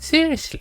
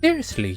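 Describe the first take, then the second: First: It is high-pitched and smug with a lisp. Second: It is said in a normal, tense voice. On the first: "high pitched, uh, but also like smug. ... That is too much of a lisp on it" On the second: "I'll just read her normally"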